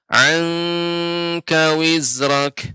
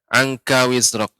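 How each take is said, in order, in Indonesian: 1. Dengungnya ditahan lebih lama. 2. Dengungnya pendek. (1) "Seharusnya agak lebih lama Nek diberi ikhfa" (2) "tadi Nek membacanya"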